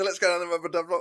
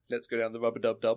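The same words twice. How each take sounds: First: It is said in a Cockney accent. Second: It is said in a non-Cockney accent. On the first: The speaker calls it right. "it works better" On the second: The speaker calls it wrong. "sounds wrong if I use it in my accent"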